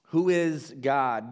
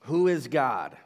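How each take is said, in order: First: Who is God? slowed, with Who leaned on; slow, weighty repeat. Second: Said in the usual way. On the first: Shown as a demonstration. Pastor repeats the question to the congregation, slow and weighty. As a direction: ask Who is God? again, slower and heavier.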